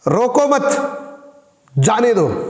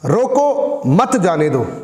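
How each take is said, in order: First: There is a break right after 'mat'. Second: There is a break right after 'roko'. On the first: Do not stop the person; let them go. "यानी कि उसको रोको मत, उसको जाने दो" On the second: Stop the person; do not let them go. "इसका मतलब ये हो गया कि उसको रोको, जाने मत दो"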